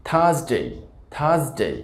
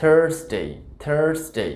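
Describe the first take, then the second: First: British থার্সডে as "THAHS-day", no r; r-less থার্সডে; British pronunciation. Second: American থার্সডে as "THURRS-day"; r-coloured vowel in থার্সডে; American pronunciation. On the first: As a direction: say থার্সডে with silent r and gliding "day". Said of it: "সঠিক উচ্চারণটা". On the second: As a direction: say থার্সডে with a clear r. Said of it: "American উচ্চারণ হবে". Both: Shown as a demonstration.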